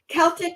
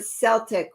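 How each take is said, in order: First: The word begins with a K sound. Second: The word begins with an S sound. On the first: "with a hard C" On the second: "with a soft C"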